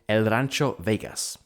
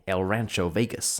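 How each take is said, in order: First: It is said without an American accent. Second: It is said with an American accent.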